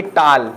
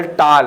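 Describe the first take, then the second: First: टाल with an open, unrounded "aa"; wrong open vowel. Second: टाल with a rounded "aw", like English "tall"; correct rounded vowel. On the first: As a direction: misread टाल as plain "taal". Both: Shown as a demonstration. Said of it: "ना कि".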